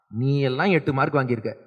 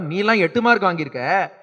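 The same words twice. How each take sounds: First: It is said in a scornful, insulting tone. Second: It is said in a playful, teasing tone.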